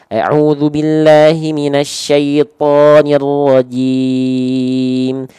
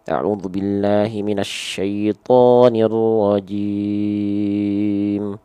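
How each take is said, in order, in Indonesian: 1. Vokalnya diucapkan dengan jelas dan utuh. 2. Vokalnya samar dan tidak jelas. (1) "Jelas a i u-nya" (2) "Nggak jelas a i u-nya"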